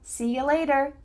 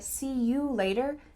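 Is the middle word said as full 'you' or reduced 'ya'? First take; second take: reduced ya; full you. First: The middle word is reduced to 'ya'. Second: The middle word is a full 'you'.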